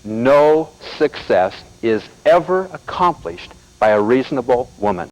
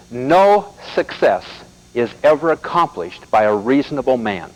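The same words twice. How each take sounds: First: Slow, emphatic repeat; repeating the quote for emphasis; slow quote again. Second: Slow and deliberate, every word weighed; quoting Malcolm Forbes slowly; slow, weighty quote. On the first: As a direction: hammer the quote home slowly. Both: Shown as a demonstration. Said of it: "Let me say it again".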